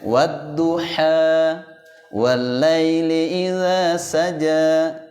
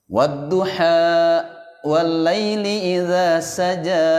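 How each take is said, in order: First: The final vowel is released openly without a catch. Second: The final vowel is cut off with a glottal catch. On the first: The speaker calls it right. "jadi dilepaskan aja" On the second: The speaker calls it wrong. "kayak ada hamzah"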